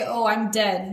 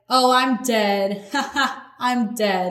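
First: Said in the usual way. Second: Imitating someone cracking up, with a laugh between; mock amusement. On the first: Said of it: "And so when we say". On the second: Acting out people finding something super funny, mock laughing. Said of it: "when we find something super funny".

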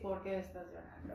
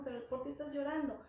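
First: Lower, reproachful, as a complaint; annoyed reproach. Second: Asked as a real question, pitch up at the start; genuine question. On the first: An irritated complaint, pitch dropped. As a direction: parent scolding a crying child, annoyed reproach. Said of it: "Como enfado, como reclamo". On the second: Concerned question with pitch raised. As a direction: parent gently asking a crying child why, a real question. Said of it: "con una forma de pregunta". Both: Shown as a demonstration.

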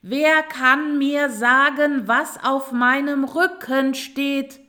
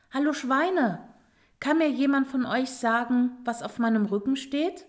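First: Slow, high, very loud shout; full-voiced, drawn-out demand; loud calling out. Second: Higher, moderately raised calling voice; a first, fairly restrained call. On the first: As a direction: shout each word over the noise. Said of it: "rief sie noch einmal". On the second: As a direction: call over to a group. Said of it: "rief Roswitha". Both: A narrator's reading.

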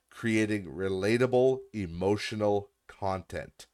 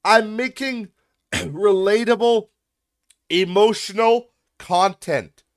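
First: Said in the usual way. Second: Slow, high, loud mock quote; mocking shout. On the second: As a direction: shout it back slowly, in ridicule. Mockingly shouts back the comment.

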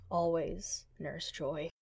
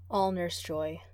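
First: Slow soft. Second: Said in the usual way. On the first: A narrator's reading. Repeated phrase, slowed and softened.

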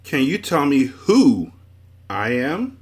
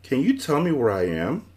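First: Loud, slow echo with "who" drawn out; stress on WHO. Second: Higher question, "where I am" rising at the end; lost inquiry. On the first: Confused man asks Milo, heavy stress on "who". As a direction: punch "who", then pause before "I am". Man echoes question, changing one word. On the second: Milo asks a passer-by the way, higher questioning tone. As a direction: ask "where I am" at an even pace, voice lifting. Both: A narrator's reading.

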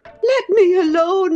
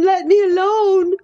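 First: High, begging voice, on the edge of sobs; sobbing Catherine. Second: High voice breaking into a sob; sobbing. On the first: Catherine begs Heathcliff to leave her be, nearly sobbing. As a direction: plead to be left alone, near tears. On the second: Catherine sobs at Heathcliff to let her alone. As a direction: cry out through tears. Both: Acted. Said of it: "sobbed Catherine".

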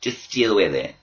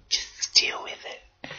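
First: Said in the usual way. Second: Slow breathy whisper. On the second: Shown as a demonstration. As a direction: hush it out slowly. Repeats the line, softened.

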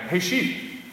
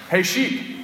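First: A high, rising call to the sheep. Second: A higher rising call to the sheep; calling out again. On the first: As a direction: sing out a friendly hey with a lift at the end. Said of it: "and I called out". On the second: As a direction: call out hey, lifting up at the end. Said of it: "and I was like". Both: Retold or imitated.

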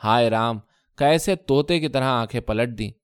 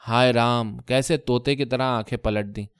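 First: hi Ram flung out with sharp accusing edge; bitter cry, کیسے stressed and falling; accusing wail at her husband; sharp lament. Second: Mild tearful lament, کیسے fading down; wife's complaint turning to tears; choking up. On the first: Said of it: "تیز آواز میں بولی". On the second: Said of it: "کہتے کہتے ان کا گلا بھر آیا تھا". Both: Acted.

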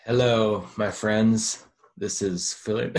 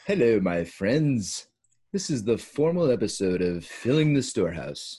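First: Loud mock announcer greeting; hammed-up host hailing listeners; mock radio host. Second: Slow, loud mock Australian-British accent; formal host in a muddled Commonwealth accent; muddled put-on accent. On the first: Mock radio voice, taking a turn. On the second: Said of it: "didn't know what that accent is".

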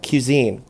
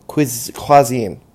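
First: Cuisine said slowly, falling, as kyu-ZEEN; sounding out Cuisine like a tricky word; careful try at cuisine. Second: Slow false start "Quiz-" then cuisine as kwah-ZEEN; stumbling pronunciation. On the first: Podcaster testing a word she struggles with, careful. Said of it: "another word I struggle with". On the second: Podcaster fumbling a hard word, slow and halting. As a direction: trip over the word, restart it slowly. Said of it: "I don't know how to pronounce it". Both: Shown as a demonstration.

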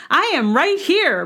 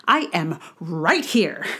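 First: Higher with a laugh, I am right here; laughing, higher boast. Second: Said in the usual way. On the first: Acted. Second take, laughing higher.

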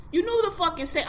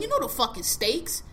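First: "knew" pitched up high and hit hard; stress on knew. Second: Said in the usual way. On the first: Shown as a demonstration. Correcting himself to the voter, stress on "knew".

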